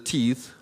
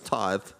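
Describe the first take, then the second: First: The word is pronounced like 'teeth'. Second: The word is pronounced like 'tithe'. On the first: The speaker calls it wrong. "doesn't know how to pronounce the word tithe" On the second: The speaker calls it right. "no, it's tithe"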